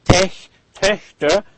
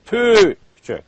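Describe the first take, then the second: First: "Tech", "Töchter" with a plain "eh"; unrounded short E. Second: "Töchter" with eh through pursed lips; rounded Ö. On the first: Teacher giving the starting sound, unrounded "Töchter". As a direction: say "Töchter" like "teshter", lips unrounded. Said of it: "pretend you're saying". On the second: Teacher modelling the plural, rounded ö. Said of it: "again with pursed lips". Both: Shown as a demonstration.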